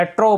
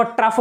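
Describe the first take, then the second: First: "ट्रो" ending on an open vowel, silent gh; open-o pronunciation. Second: "ट्रफ" closed by an f sound; f-ending pronunciation. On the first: Teacher contrasting two ways to say trough, open-o pronunciation. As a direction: say "ट्रो" with a long o and no f. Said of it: "या ट्रो बोलते हैं". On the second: Teacher contrasting two ways to say trough, f-ending pronunciation. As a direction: say "ट्रफ" with a short vowel and final f. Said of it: "इसको ट्रफ बोलते हैं या". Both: Shown as a demonstration.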